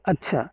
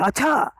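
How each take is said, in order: First: The word is said in a plain, ordinary way. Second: The word is said sharply and with more force. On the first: It means fine, it is good. "आप अगर साधारण कहेंगे अच्छा" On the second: It means the opposite, that it is bad. "थोड़ा सा तेज कह दिया अच्छा"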